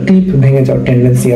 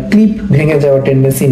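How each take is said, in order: Both takes have the same delivery.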